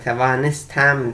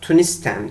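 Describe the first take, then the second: First: The word is said in its full form. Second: The word is said in a shortened form. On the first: This is the written form, not used in daily speech. "fiili günlük konuşmada tevanistem diye söylenmiyor" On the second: This is how it is said in everyday speech. "Tunistem diye söylüyoruz"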